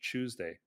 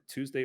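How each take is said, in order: First: The word starts with a ch sound. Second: The word starts with a plain t sound. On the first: "ch, ch Tuesday" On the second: "t, t Tuesday"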